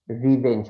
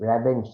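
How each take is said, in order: First: রিভেঞ্জ with a clear "ri"; correct pronunciation. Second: রেভেঞ্জ with an open "re-"; the mistaken রেভেঞ্জ, "re" as in red; wrong pronunciation. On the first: Teacher gives Rashed the right রিভেঞ্জ. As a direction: say রিভেঞ্জ, "ri" as in river. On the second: Teacher corrects Rashed by repeating his রেভেঞ্জ. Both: Shown as a demonstration. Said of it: "আপনার উচ্চারণটা ভুল হয়েছে".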